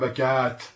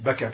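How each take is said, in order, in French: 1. La voyelle avant le t final est longue. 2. La voyelle avant le t final est courte. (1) "on ne dit pas Bakat" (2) "on dit Bakat"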